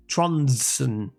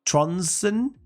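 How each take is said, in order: First: Tronsen said firmly with a falling tune; settled name. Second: Tronsen? asked with a rising, doubtful tune; unsure name try. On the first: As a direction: state the name Tronsen as final. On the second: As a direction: test the name Tronsen as a question. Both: Real, not acted.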